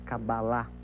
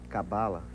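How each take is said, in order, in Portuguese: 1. O acento está na última sílaba. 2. O acento está na penúltima sílaba.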